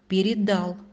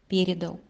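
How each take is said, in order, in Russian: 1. Ударение на последнем слоге. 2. Ударение на первом слоге.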